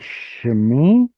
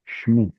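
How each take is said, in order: First: A short vowel is heard between sh and m. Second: No vowel is heard between sh and m. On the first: This is the biblical reading. "It's supposed to be shmi" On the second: This is the modern everyday reading. "in modern pronunciation where everyone's lazy, it becomes shmi"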